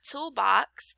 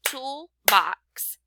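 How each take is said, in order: First: Said in the usual way. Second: "toolbox" split into tool and box; two distinct beats on "toolbox" with a pause between; clapped-out syllables. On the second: Shown as a demonstration. Teacher breaking up the word for pupils, "toolbox" in two spaced beats. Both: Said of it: "If I clapped out".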